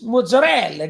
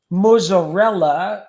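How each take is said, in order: First: It is pronounced the Italian dialect way. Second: It is pronounced the standard, full way. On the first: The speaker calls it right. "it's mozzarella" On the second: The speaker calls it wrong. "we don't call it mozzarella"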